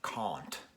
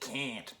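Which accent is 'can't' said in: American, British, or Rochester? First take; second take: British; Rochester. First: The word is said in a British accent. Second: The word is said in a Rochester accent. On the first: "he has a very noticeable British accent" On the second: "Rochester, where I am, they'd say can't"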